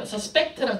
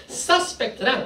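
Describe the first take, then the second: First: "suspect" with PECT hit hard; light first syllable, then punch it: "suspect" as sus-PECT; stress on second syllable. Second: "suspect" with SUS hit hard; stress on first syllable. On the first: Teacher contrasts verb with noun, "suspect" stressed on PECT. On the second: Teacher contrasts noun with verb, "suspect" stressed on SUS. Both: Shown as a demonstration. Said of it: "어디에 악센트를 두느냐에 따라서 달라지는 건데".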